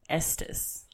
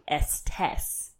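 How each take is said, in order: First: The second vowel is sounded like an 'i'. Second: The second vowel is sounded like an 'e'. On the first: The speaker calls it right. "the second E is supposed to be pronounced like an I, not an E" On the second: The speaker calls it wrong. "I kept saying Estes. But I'm wrong"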